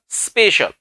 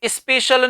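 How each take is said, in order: First: It begins directly with a hissing s. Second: It does not begin directly with hissing s. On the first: The speaker calls it right. "Hissing sound के साथ आप शब्दों का प्रयोग करो" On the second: The speaker calls it wrong. "जबकि स्पेशल नहीं होता"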